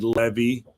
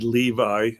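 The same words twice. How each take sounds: First: The name is pronounced the Hebrew way. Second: The name is pronounced the English way.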